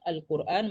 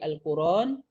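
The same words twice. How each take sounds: First: A glottal stop is heard before the last vowel. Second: No glottal stop; the vowel joins the r. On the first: "contohnya Al-Quran menjadi" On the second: "menjadi Al-Quran"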